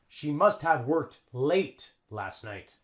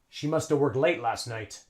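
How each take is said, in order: First: Must have is pronounced fully as two words. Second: Must have is reduced to one word, musta. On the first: The speaker calls it wrong. "Native English speakers don't say that" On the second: The speaker calls it right. "A native English speaker would say"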